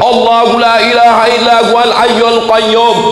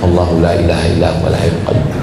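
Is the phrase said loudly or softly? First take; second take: loudly; softly. First: It is said loudly and forcefully. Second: It is said softly and quietly. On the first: The speaker calls it right. "Yang dipakai kuat" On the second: The speaker calls it wrong. "bukan gitu"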